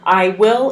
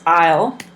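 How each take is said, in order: First: It is said as two full separate words. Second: It is said as one short contracted syllable. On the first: "I will is I'll" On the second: "I will is I'll"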